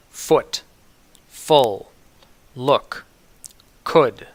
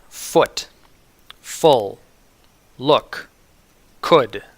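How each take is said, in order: Both takes have the same delivery.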